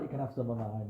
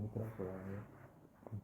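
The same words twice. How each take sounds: First: Said in the usual way. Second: Much softer, slow, a smug offer; quiet smug repeat. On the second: Retold or imitated. Bob softly, slowly gloats as he offers his spare fish. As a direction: let the repeat drop to a slow, soft gloat.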